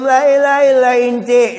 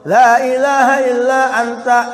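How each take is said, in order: First: The final word is said with 'i' vowels. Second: The final word is said with 'a' vowels. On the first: The speaker calls it wrong. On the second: The speaker calls it right.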